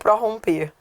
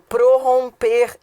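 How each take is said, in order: First: The prefix pro- is stressed and open. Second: The prefix pro- is unstressed and reduced. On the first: The speaker calls it wrong. "e não" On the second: The speaker calls it right. "o correto é átono"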